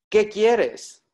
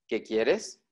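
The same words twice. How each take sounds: First: It is said with an exclamatory tune. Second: It is said with a flat statement tune. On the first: It expresses surprise or emotion. "esta es una exclamación" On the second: It states what someone wants. "Este está en infinitivo"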